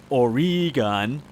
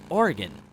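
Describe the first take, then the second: First: It is said the East Coast way. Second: It is said the local Oregon way.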